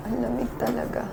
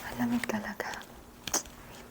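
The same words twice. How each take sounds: First: Said in the usual way. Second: Soft unvoiced whisper. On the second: Real, not acted. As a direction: whisper so no one wakes. Quiet whisper in the cold.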